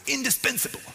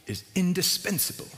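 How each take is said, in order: First: Mock American shout, pitched way up; American accent shout. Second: INDISPENSABLE pitched up, not yet shouted; higher-pitched, measured stress on indispensable; emphatic lecturer quote. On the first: Pastor mimicking his Old Testament lecturer, mock shout in American accent. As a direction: imitate an American lecturer's high-pitched exclamation. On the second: Retold or imitated. Pastor quoting his Bible college lecturer, emphatic on indispensable. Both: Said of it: "He shouted it in his American accent".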